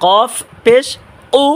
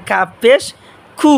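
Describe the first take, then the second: First: কফ with a heavy back-of-tongue q; tongue root to palate, thicken কফ পেশ উ; thick qaf. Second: কু with a light, thin k; tongue slightly forward, keep কু light; thin kaf. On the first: Teacher fixing qaf and kaf confusion, thick কফ. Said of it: "জিহ্বার গোড়া তার বরাবর উপরে তালুর সাথে লাগাইয়া মোটা আওয়াজে". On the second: Teacher contrasting kaf with qaf, thin light কু. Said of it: "মানে এটা চিকন আওয়াজে". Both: Shown as a demonstration.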